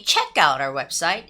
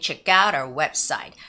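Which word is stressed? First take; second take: check; out. First: The word check carries the main stress. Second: The word out carries the main stress. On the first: The speaker calls it wrong. "it sounds a little off" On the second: The speaker calls it right. "you can hear more of the sound for the word out rather than check"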